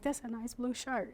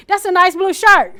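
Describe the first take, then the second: First: Quiet, easy first take; quiet plain remark; soft first try. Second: Loud, high repeat for the hard of hearing; loud repeat to the listener; louder repeat. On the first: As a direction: say it softly once. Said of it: "I'm like". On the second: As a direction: raise your voice at them. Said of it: "we're supposed to get louder". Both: Shown as a demonstration.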